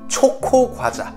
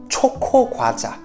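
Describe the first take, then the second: The two takes are said the same way.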